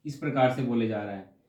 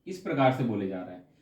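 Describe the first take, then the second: No difference in how they are said.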